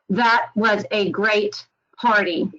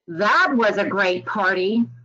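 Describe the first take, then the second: First: It is said flatly, like a computer voice. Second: It is said with a sarcastic, mocking tone. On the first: It does not show that the party was good. "Sounds kind of flat" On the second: The party was actually not great. "You can probably hear a little bit of sarcasm coming through"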